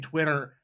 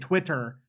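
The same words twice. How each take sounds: First: The middle T is soft and blurred. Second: The T sounds are crisp and fully released. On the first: The speaker calls it wrong. "don't say Twitter" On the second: The speaker calls it right. "say Twitter"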